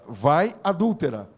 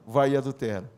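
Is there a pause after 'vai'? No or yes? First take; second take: yes; no. First: There is a pause after the first word. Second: The words run together without a pause. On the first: It addresses the woman as an adulteress. The speaker calls it right. "Não respeitou a pontuação. Vai, adúltera. Né? Falando daquela mulher adúltera" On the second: It tells someone to go and commit adultery. The speaker calls it wrong. "Não, vai e adultera"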